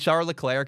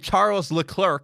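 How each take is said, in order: First: The name is given a French-style pronunciation. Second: The name is given an Americanized pronunciation. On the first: The speaker calls it right. "I say Charles Leclerc because I know how to say his name" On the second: The speaker calls it wrong. "I don't say Charles Leclerc"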